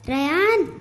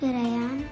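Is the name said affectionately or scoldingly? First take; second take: scoldingly; affectionately. First: The name is said loudly and scoldingly. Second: The name is said softly and affectionately.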